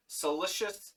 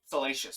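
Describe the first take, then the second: First: Salacious said as "suh-LISH-us"; short "ih" in the middle of salacious; mispronounced salacious. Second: Salacious said as "suh-LAY-shus"; long "ay" in the middle of salacious; corrected salacious. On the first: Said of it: "Salacious, sorry". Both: Real, not acted.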